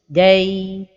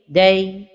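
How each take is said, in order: First: The vowel is held for a long time. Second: The vowel is kept short and brief. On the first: The speaker calls it wrong. "donner beaucoup de temps à la lettre line comme ceci" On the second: The speaker calls it right. "la prononciation correcte est"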